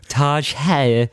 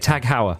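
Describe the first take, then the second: First: The first word ends with a soft 'j' sound. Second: The first word ends with a hard 'g' sound. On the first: "I used to pronounce it Taj Heuer" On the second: "No, Tag Heuer is what I used to say"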